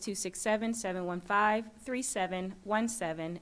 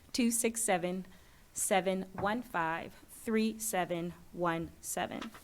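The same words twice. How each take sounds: First: It is read at normal speed. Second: It is read more slowly.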